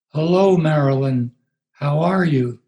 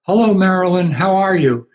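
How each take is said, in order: First: A hint of a sedated woman parroting him; mimicking in medicated voice. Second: Loud, higher call across the lobby; yelled greeting. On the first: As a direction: Marilyn mimicking the pastor's greeting, lightly drugged. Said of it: "in her medicated voice". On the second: Retold or imitated. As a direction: call out cheerfully from a hundred feet away. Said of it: "I just yelled out".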